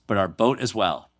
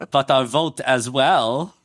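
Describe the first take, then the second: First: Put-on light German accent; a slight touch of German accent. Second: Slow, exaggerated German accent; hammed-up German accent, rising at the end. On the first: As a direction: finish the quote in a mild German accent. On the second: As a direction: stretch it out in thick mock German. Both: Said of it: "How was my German accent".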